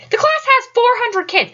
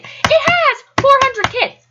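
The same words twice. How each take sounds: First: Said in the usual way. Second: Slow, high stress on "It has"; "has" stretched and punched for emphasis; insistent repeat. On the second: Retold or imitated. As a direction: spell it out slowly, leaning hard on "has".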